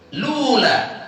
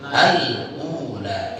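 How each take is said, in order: First: It starts directly with 'lu', without initial 'a'. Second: It starts with 'al' and has no glottal stop. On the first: "Huruf lamnya baris dom. Doma. Lu. Kemudian diikuti hamzah suk" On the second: "Cara ketiganya sama seperti haf"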